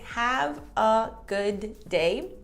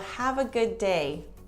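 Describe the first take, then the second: First: The d of good is released before day. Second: One d sound joins good and day. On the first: The speaker calls it wrong. "Instead of saying" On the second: The speaker calls it right. "We kind of just use one D for both words"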